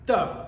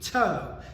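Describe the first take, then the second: First: The T is soft, almost like a D. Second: The T is said with a strong burst. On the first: The speaker calls it right. "It's got to be like do" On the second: The speaker calls it wrong. "it's not going to be to. So you can't have that strong T sound"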